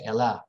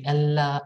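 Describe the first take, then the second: First: The middle L sound is single and short. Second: The middle L sound is doubled and held long. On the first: The speaker calls it right. "we say Ella. It's always single" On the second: The speaker calls it wrong. "we don't say Ella"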